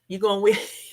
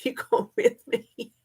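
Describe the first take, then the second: First: Said in the usual way. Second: Repeated through a real laugh, jumping much higher. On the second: Real, not acted. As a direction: laugh as you ask it again.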